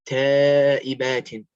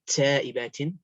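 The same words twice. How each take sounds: First: The t is crisp with no hissing noise. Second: The t has a hissing s-like noise. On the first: The speaker calls it right. "It's taibatin" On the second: The speaker calls it wrong. "not taibatin"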